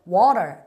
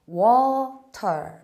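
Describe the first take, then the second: First: The t is flapped, sounding like a quick r. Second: The t is pronounced as a clear t sound. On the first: "미국식 발음으로 간다면은 그렇죠. water에서 t를 R 발음으로 바꿉니다 ... 이렇게 굴리게 되고요" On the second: "영국 발음은요. 그대로 발음합니다"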